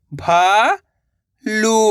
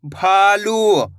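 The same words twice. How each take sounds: First: भा, long pause, लू; भालू split slowly, rising first syllable. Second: भालू joined, long vowels; blended word. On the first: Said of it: "एक अक्षर का उच्चारण करना है". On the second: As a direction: say भालू as one drawn-out word. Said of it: "मिलके क्या बनेगा". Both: Shown as a demonstration.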